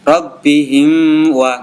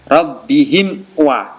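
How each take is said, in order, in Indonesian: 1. Huruf m sebelum wa samar, tidak jelas. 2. Huruf m sebelum wa diucapkan dengan jelas. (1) "jangan sampai" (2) "ini harus dibaca jelas"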